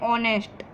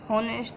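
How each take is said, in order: First: The word begins with a vowel, no h. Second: The word begins with an audible h sound. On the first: The speaker calls it right. "इसे हम कहते हैं ऑनेस्ट। यहाँ पर एच silent होता है" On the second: The speaker calls it wrong. "इसे हम होनेस्ट नहीं कहते हैं"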